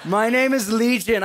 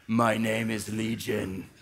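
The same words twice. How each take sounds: First: Louder, higher demon declaration; louder demon try. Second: Low, slow menacing growl; deep demon voice. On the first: Preacher retrying the demon line, louder and higher. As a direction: push it out loud and high. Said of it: "I have such a wussy, like, musician voice". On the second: Preacher voicing the demon Legion, deep and slow. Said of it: "I need, like, a man voice there". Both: Acted.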